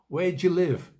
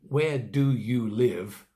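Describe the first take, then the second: First: Do and you merge, giving three syllables. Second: Every word is said fully, in four syllables. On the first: The speaker calls it right. "We make it three syllables" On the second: The speaker calls it wrong. "We don't say, ... We don't make it four syllables"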